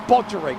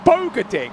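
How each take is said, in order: First: The name begins with the sound 'Bodge'. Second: The name begins with the sound 'Boga'. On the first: The speaker calls it wrong. "I keep on calling Bodgering" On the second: The speaker calls it right. "Actually, is it Bogading?"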